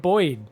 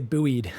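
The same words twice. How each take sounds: First: It is said with the British pronunciation. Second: It is said with the American pronunciation. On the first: "why do you keep saying buoyed?" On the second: "apparently in America, you guys say buoyed"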